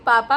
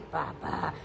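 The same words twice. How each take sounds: First: It is said in a normal voice. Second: It is said in a low, hoarse voice.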